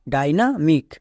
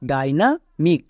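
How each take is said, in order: Both takes have the same delivery.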